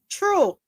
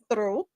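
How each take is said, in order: First: The word begins with a plain 't' sound. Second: The word begins with a 'th' sound. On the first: This is how it is said in Jamaican speech. "we say" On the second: This is not how it is said in Jamaican speech. "We don't say through"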